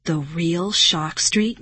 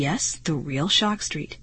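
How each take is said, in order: First: Slow, rising incredulous question; amazed cry. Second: Said in the usual way. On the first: A narrator's reading. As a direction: draw it out in amazed disbelief. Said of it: "Marty cried".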